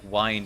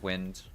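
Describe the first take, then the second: First: The vowel is long, rhyming with find. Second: The vowel is short, rhyming with pinned. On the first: It means to turn or wind down. The speaker calls it wrong. "I read that as like wind" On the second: It means moving air, as in second wind. The speaker calls it right. "instead of wind"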